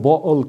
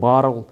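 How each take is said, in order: First: The middle t is dropped, British slang style. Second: The middle t is pronounced, American style.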